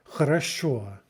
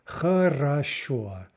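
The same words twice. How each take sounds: First: Said in the usual way. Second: Хорошо drawn out as khuh, rah, SHO; slow demonstration. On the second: Shown as a demonstration. Teacher shows all three vowels, Хорошо slowly by syllable. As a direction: sound out Хорошо slowly, each vowel distinct. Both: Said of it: "because it has all three".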